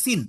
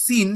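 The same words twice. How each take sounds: First: সিন said short and clipped like English sin; সিন as in sin, short vowel. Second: সিন with a long stretched ee like English seen; সিন as in seen, drawn-out vowel. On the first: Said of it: "সিন মানে পাপ". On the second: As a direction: hold the ee in সিন. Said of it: "একটা ই বলে বলতেছো". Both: Shown as a demonstration.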